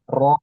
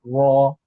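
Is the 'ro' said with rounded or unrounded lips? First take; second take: unrounded; rounded. First: The sound is made without pushing the lips forward. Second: The sound is made with lips pushed forward. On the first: The speaker calls it right. "Tapi biasa aja" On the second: The speaker calls it wrong. "tidak perlu dengan bibir. Ro, ro, salah ya"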